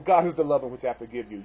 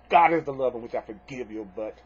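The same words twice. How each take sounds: First: Begrudging forgiveness. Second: Grudging, annoyed. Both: Shown as a demonstration. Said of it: "You don't have to necessarily say it in a really nicey, nicey way".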